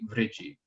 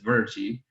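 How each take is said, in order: First: The r is sounded as a plain consonant. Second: The r is sounded as a syllabic vowel. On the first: "in modern uh, pronunciation" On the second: "This says"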